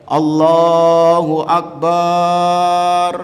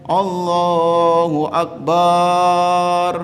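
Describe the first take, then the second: The two takes are said the same way.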